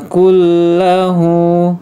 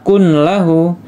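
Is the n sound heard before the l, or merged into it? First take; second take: merged; heard. First: The n merges into a doubled l sound. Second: A separate n sound is heard before the l. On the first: The speaker calls it right. "yang ini langsung masuk ke huruf lamnya" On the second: The speaker calls it wrong. "tidak ya"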